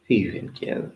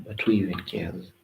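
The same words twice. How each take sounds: First: Breathy whisper, voiceless. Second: Said in the usual way. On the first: Shown as a demonstration. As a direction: whisper the repeat to yourself.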